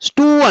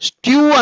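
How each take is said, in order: First: No y-glide comes before the vowel: stoo. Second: A y-glide comes before the vowel: styoo. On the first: The speaker calls it right. "స్టూ అంటారు" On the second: The speaker calls it wrong. "స్ట్యూ అనరు"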